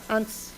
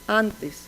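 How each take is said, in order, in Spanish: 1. La vocal final átona se elide por completo. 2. La vocal final átona se pronuncia completa. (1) "o totalmente eliminada" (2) "con la vocal átona plenamente conservada"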